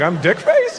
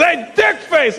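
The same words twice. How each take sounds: First: Puzzled question. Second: High mock holler; high-pitched imitated heckle; calling out insultingly. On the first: Retold or imitated. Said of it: "I'm like". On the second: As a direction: yell the insult at a stranger. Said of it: "He goes".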